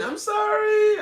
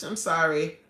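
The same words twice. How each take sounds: First: Very high, loud drawn-out call; wailed apology. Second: Said in the usual way. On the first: Real, not acted. Host calling to departed viewer, wailing apology. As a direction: wail it after someone leaving. Calling after guest who left.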